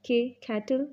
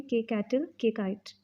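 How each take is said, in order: First: कैटल with breathy ख-like k; aspirated k. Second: कैटल with plain unaspirated k; no puff on k. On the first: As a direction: puff the k in कैटल. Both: Shown as a demonstration. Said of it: "इस तरह से भी पढ़ सकते हैं".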